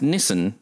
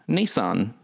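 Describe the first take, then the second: First: Nissan is said the Australian way. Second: Nissan is said the American way. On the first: The speaker calls it wrong. "in Australia we pronounce Nissan" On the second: The speaker calls it right. "So Americans have been saying it right"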